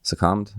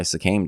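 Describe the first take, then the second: First: "Succumbed?" as suh-KUMD, questioning rise; unsure self-correction. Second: "succumbed" misspoken as "suh-KAYMD"; mistaken past tense. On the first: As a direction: check the word "Succumbed?" aloud, short U, pitch lifting. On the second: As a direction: say "succumbed" with a long A, rhyming with named. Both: Real, not acted. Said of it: "I don't know".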